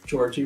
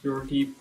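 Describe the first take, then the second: First: The name is said the American way. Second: The name is said the Eastern European way. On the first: "America, Georgie works" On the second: "Most of the Eastern Bloc, Yorgi probably is right"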